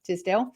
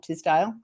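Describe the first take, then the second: First: The last syllable rhymes with 'sell'. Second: The last syllable rhymes with 'sale'. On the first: The speaker calls it right. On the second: The speaker calls it wrong. "not Tisdale"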